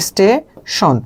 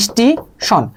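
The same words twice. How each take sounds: First: স্টেশন said as a plain word with no vowel before it; original form. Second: স্টেশন said as "ইস্টিশন" with an i sound before it; added initial vowel. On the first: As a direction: say স্টেশন starting straight on the s cluster. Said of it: "অথবা আপনাকে দেবে হচ্ছে স্টেশন". (স্টেশন মূল উচ্চারণে) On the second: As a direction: add an i before স্টেশন and round the end to "ইস্টিশন". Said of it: "স্টেশন থেকে আপনাকে দেবে হচ্ছে". (স্টেশন শুরুতে ই যোগ করে ইস্টিশন) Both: Shown as a demonstration.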